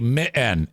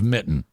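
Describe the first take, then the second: First: The T sound in the middle is dropped. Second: The T sound in the middle is pronounced. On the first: The speaker calls it wrong. "they will say" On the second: The speaker calls it right. "instead of"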